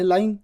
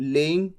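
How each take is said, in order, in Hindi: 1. पहला स्वर 'lie' जैसा सुनाई देता है। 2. पहला स्वर 'lay' जैसा सुनाई देता है। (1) "जबकि ये तो है लाइंग" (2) "आप कह दें लेइंग"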